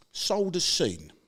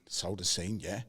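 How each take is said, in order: First: Sold as seen, drawn out slowly and louder, each word weighed; slow blunt quote. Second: Said in the usual way. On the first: Retold or imitated. Quoting blunt client on phone.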